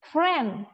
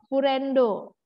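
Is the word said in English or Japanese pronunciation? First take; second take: English; Japanese. First: It is said as English, ending in 'd'. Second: It is said the Japanese way, with a final 'o'.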